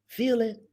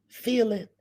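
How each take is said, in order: The two takes are said the same way.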